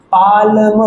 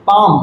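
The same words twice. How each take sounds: First: पाल्म said with a clear L before the M, the wrong way; wrong L sound. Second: पाम said as paam with no L sound; silent L. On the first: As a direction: sound the L in पाल्म, as a mistake to avoid. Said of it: "पाल्म नहीं पढ़ते". (पाल्म, एल की आवाज़ के साथ, गलत उच्चारण) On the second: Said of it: "इसको हम लोग पाम पढ़ते हैं". (पाम बिना एल की आवाज़ के, पा-म) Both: Shown as a demonstration.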